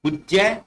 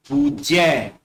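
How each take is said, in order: First: पूज्य quick, short u, rising; incorrect short u. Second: पूज्य with long oo, falling; corrected long oo. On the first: Teacher reads the incorrect पूज्य with short u. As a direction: say पूज्य as "puj-ya?". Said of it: "बाईं तरफ अशुद्ध शब्द". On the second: Teacher models correct पूज्य with drawn-out oo. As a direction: say पूज्य as "pooj-ya". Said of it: "उनको शुद्ध करके लिखा गया". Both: Shown as a demonstration.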